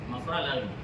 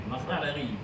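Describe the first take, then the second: Both takes have the same delivery.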